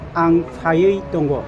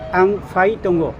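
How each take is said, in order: First: The verb is stretched into two syllables. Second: The verb is said as one short syllable. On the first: "we do pronounce this way also" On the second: "Like Ang Fai Tongo"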